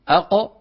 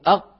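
First: The final q is released with a slight bounce. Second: The final q stays closed with no release. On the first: "قالوا أق" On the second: "بدلا من أن يقولوا أق"

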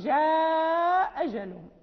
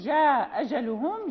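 First: The long vowel in the first word is drawn out. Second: The long vowel in the first word is kept short. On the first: "يجوز القصر والمد" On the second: "يجوز القصر والمد"

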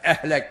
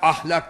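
First: The vowels are fronted to 'e', regional style. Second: The word has open 'a' vowels, standard style. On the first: "Ehlek diyecek" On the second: "Erzurumlu ise ahlak diyemez"

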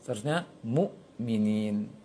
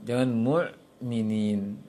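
First: The hamzah is a firm, held stop. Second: The hamzah is soft, without a held stop. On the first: The speaker calls it right. "Seharusnya ... Itu syiddah" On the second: The speaker calls it wrong.

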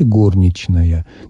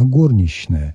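First: It follows the old Petersburg literary norm. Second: A short shch sound replaces the ch. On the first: "носителем старопетербургского варианта литературного произношения, произносите" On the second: "вместо «ч» фактически звучит «щ». Такой коротенький"

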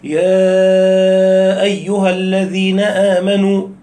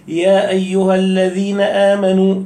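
First: The vowel of 'ya' is drawn out long. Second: The vowel of 'ya' is held short. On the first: The speaker calls it wrong. "امال مدت يا ايها ليه؟" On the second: The speaker calls it right. "لما اجي اقول اكون بقرا بالكسر"

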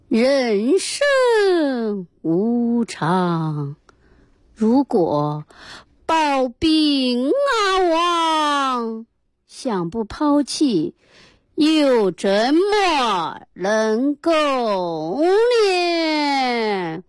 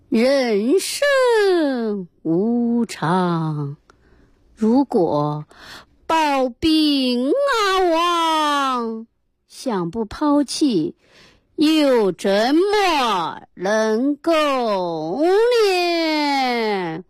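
First: The line is recited in a stylized opera-like voice. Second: The same.

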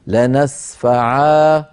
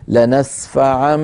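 First: The word ends with a long a. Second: The word ends with an n sound. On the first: The reader stops on this word. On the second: The phrase continues without a stop.

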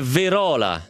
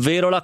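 First: The stress falls on the syllable 'ro'. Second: The stress does not fall on 'ro'. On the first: The speaker calls it right. "si dice Verola ... con l'accento sulla O" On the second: The speaker calls it wrong. "non Verola"

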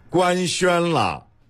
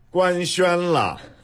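The two takes are said the same way.

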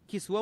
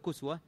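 First: The first vowel is i. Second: The first vowel is u. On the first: "هل كاف مكسورة" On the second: "ولا مضمومة"

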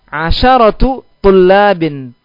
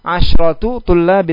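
First: A short a vowel follows the sh sound. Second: No vowel follows the sh sound. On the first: The speaker calls it right. "Kenapa pakai sya' fathah?" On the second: The speaker calls it wrong. "Tidak dikatakan apa?"

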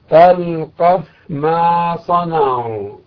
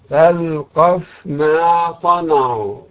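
First: The f sound is clearly pronounced before m. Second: The same.

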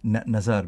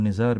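First: The first vowel is a short 'a'. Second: The first vowel is a short 'i'. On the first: It is the proper name. The speaker calls it right. "بفتح النون" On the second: It means a small amount. The speaker calls it wrong. "بكسر النون"

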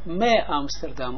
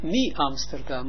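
First: The prefix vowel sounds like 'eh'. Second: The prefix vowel sounds like 'ee'. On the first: The speaker calls it right. "maar me Amsterdam" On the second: The speaker calls it wrong. "niet mi Amsterdam"

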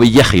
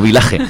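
First: The middle consonant is a double-L sound. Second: The middle consonant is a plain single L. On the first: The speaker calls it right. "por eso digo Villaje" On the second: The speaker calls it wrong. "y no Vilaje"

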